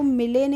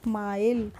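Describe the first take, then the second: First: It is said as two syllables, final vowel sounded. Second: It is said as one syllable, final vowel silent. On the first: The speaker calls it wrong. "इसको मिले नहीं पढ़ेंगे" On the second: The speaker calls it right. "इसको पढ़ेंगे माइल"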